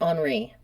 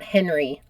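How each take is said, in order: First: The name is said with a French pronunciation. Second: The name is said with an American English pronunciation. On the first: The speaker calls it right. "I pronounced it Henri" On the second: The speaker calls it wrong. "not Henry, like I would if I was American"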